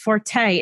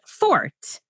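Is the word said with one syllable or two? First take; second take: two; one. First: The word is said as two syllables. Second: The word is said as one syllable. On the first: The speaker calls it wrong. "And I secretly cringe inside" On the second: The speaker calls it right. "supposed to be pronounced fort"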